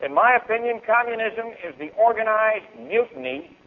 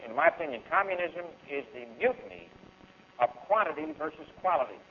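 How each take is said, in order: First: Said in the usual way. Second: Slow and deliberate, each word weighed; said slowly. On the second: Shown as a demonstration. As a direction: lay it out slowly so the crowd can follow. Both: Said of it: "I'm gonna say this slow".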